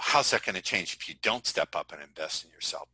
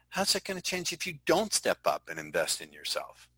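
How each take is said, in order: First: It is said in a harsh, confrontational tone. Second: It is said in a soft, gentle tone. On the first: The question challenges the listener aggressively. The speaker calls it wrong. "Seems confrontational. Depends on how you say it" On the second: The question shows empathy before challenging. The speaker calls it right. "I hear you, Dave. Let me ask you a question"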